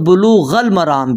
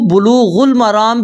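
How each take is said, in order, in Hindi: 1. पहले शब्द का अंत 'a' स्वर से होता है। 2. पहले शब्द का अंत 'u' स्वर से होता है। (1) "गैन के ऊपर जबर पढ़ेंगे" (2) "रफा भी पढ़ सकते हैं यानी पेश"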